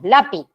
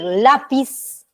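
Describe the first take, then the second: First: The final s sound is dropped. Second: The final s sound is clearly pronounced. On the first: "nos solemos comer todas las eses... o las zetas" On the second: "en vez de decir lápiz"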